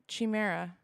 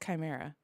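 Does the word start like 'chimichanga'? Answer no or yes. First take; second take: yes; no. First: The start sounds like the start of 'chimichanga'. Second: The start does not sound like 'chimichanga'. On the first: The speaker calls it wrong. "not chimera, like chimichanga" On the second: The speaker calls it right. "I'm pretty sure it's chimera"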